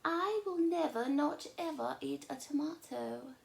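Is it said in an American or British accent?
British. It is said in a British accent.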